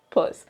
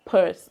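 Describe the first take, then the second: First: "Perth" in her own way, no r at all. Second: "Perth" said with a rolled r, like pursed; mock "Perth" with the r sounded; other accent's Perth. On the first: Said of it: "definitely not my Perth". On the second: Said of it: "I don't know what accent that is, but it's definitely not my Perth". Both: Shown as a demonstration.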